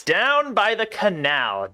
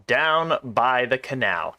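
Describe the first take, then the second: First: Slow and raised in pitch; high, drawn-out reading. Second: Slow, settling down in pitch; lower, drawn-out repeat. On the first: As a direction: stretch it out up high. Line read twice in different pitch. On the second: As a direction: echo it slowly without the lift. Repeat of the same line. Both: Acted.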